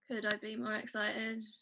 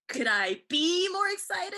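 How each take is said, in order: First: It is said in a really bored way. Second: It is said lively, like Chandler.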